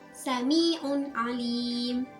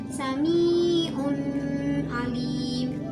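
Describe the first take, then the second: First: The n sound is pronounced clearly and separately. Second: The n sound is blended, not pronounced clearly. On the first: The speaker calls it right. "Tata cara bacanya itu harus jelas dan terang" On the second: The speaker calls it wrong. "maka itu bacaannya adalah salah"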